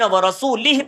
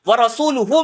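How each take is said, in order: First: The word ends with an 'ihi' sound. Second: The word ends with an 'uhu' sound. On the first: God is free of his own messenger too. The speaker calls it wrong. "पेश ना अदा करते हुए अगर ज़ेर पढ़ लिया" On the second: The messenger also declares himself free of the idolaters. The speaker calls it right. "व रसूलुहु में नाम पे पेश है"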